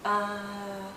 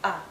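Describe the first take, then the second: First: The vowel sound is held out long. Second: The vowel sound is kept very short. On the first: "If you were to hold this sound out" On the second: "most often we make it a short sound"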